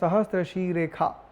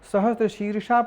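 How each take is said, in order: First: The second word has a 'kh' sound. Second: The second word has an 'sh' sound. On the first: "हम लोग उच्चारण करते हैं सहस्त्र शीरेखा" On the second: "सहस्त्र शीर्षा पद है"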